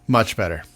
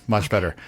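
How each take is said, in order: No difference in how they are said.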